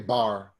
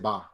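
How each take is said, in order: First: The word ends with an r sound. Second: The word ends with an open vowel. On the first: The speaker calls it wrong. "we don't say bar" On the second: The speaker calls it right. "we just say ba"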